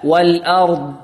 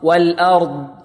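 Both takes have the same delivery.

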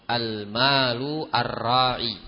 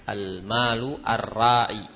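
Both takes have the same delivery.

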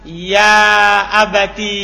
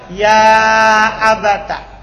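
First: The word ends in a long i vowel. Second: The word ends in a short a vowel. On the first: "Bita'i walia" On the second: "Dia fathah ta-nya"

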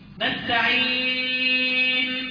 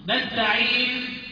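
First: The vowel before the final n is medium length. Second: The vowel before the final n is short.

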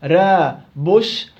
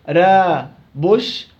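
Both takes have the same delivery.

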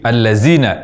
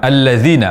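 First: The middle consonant is a z sound. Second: The middle consonant is a soft th sound. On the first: The speaker calls it wrong. "ini mengubah huruf dzal menjadi zai" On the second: The speaker calls it right. "ini mengubah huruf dzal menjadi zai"

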